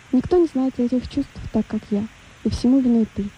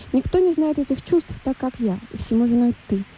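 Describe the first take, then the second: The two takes are said the same way.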